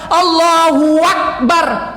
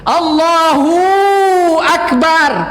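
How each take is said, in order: First: A 'wa' sound links 'hu' to 'akbar'. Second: The 'hu' is stretched into a long vowel. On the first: "waw yang berbaris di atas ... Huak" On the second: "waw yang sukun itu ... Panjang hu jadi"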